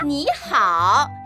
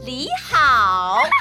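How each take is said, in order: First: The first syllable starts with a nasal n sound. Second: The first syllable starts with an l sound. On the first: The speaker calls it right. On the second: The speaker calls it wrong.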